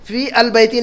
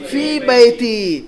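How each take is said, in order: First: "फी अल बैती" with al between the words; wrong example "फी अल बैती", article sounded; form to avoid. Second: "फी बैती" very slow, no L; stretched-out teacher's model of "फी बैती", without al; correct form. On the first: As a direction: say "फी अल बैती" as fii al bayti. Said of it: "नहीं लिखेंगे आप". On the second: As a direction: say "फी बैती" as fiii baytiii. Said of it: "क्या लिखेंगे हम". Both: Shown as a demonstration.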